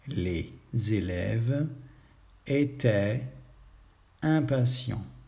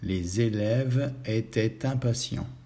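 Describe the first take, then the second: First: The words are said separately without liaisons. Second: The words are linked together with liaisons.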